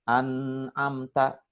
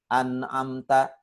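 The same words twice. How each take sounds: First: Very slow "an'amta" with a prolonged hummed "n"; ghunnah repeated. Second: Slow "an'amta" with a shorter, cleanly released "n"; izhar, clear n. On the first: Retold or imitated. Ustadz imitating the learner repeating the mistake, lingering nasally on "an'amta". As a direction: relapse into holding the "n" of "an'amta". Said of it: "Berguna lagi". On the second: Shown as a demonstration. Ustadz correcting the tested learner, clear unheld n in "an'amta". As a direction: model "an'amta" without holding the hum. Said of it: "Saya bilang, ayo".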